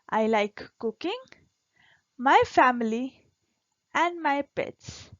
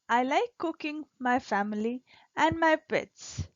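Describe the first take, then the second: First: There is a pause after cooking. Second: It runs on with no pause after cooking.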